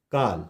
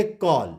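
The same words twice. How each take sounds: First: काल with a long open 'aa', pitched low; wrong vowel. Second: कॉल with a rounded 'aw'; correct vowel. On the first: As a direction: say काल with 'aa', low and softer, as the mistaken reading. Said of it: "अगर इस तरह से पढ़ेंगे". (काल में 'आ' की आवाज़) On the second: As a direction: say कॉल with 'aw', not 'aa'. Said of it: "इसको हम पढ़ेंगे". (कॉल में 'ऑ' की गोल आवाज़) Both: Shown as a demonstration.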